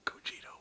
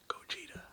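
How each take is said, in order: Both takes have the same delivery.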